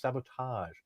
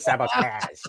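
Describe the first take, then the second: First: The word is said without a Canadian accent. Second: The word is said with a Canadian accent. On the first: The speaker calls it right. "pull out the A on sabotage? It's sabotage" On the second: The speaker calls it wrong. "I pronounce it sabotage"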